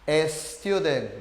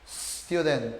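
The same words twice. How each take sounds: First: An e sound comes before the s. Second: It begins directly with a hissing s. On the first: The speaker calls it wrong. "así, con una E" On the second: The speaker calls it right. "se pronuncia con la S sibilada"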